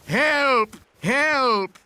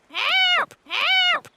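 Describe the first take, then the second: First: High urgent cry for help; calling for help. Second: Squawky high parrot echo. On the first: Shown as a demonstration. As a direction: call out help for the parrot to copy. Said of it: "I can teach Polly what to say". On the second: Acted. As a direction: parrot repeats the cry back. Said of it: "Grandpa Pig says".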